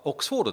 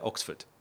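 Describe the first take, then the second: First: The final syllable is a long, full 'fōdo'. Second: The final syllable is short and reduced. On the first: This is the established Japanese rendering. The speaker calls it wrong. "フォードってカタカナ表記になるというパターンが定着しています" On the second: This is how the name is actually said. The speaker calls it right. "だけど実はオックスフォードだって"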